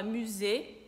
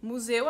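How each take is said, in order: First: "musée" in French, stressed closed E at the end; French pronunciation. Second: Said in the usual way. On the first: Shown as a demonstration. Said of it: "a gente fala musée". ("musée" à francesa) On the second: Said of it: "Museu, a gente fala musée".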